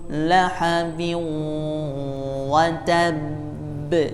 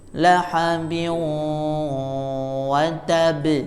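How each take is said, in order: First: The final b is pressed before it bounces. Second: The final b bounces immediately without pressing. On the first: The speaker calls it right. "harus ditekan, tidak boleh langsung mantul" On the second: The speaker calls it wrong. "ini hilang tasdidnya, itu tidak boleh"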